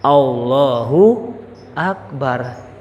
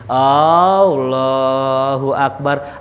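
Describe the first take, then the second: First: The first vowel of Allah is short. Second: The first vowel of Allah is drawn out long. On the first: God is the greatest. The speaker calls it right. "takbirnya juga bener" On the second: It turns into a question: is God the greatest? The speaker calls it wrong. "Kalau panjang, apakah Allah Maha Besar? Nanya jadinya"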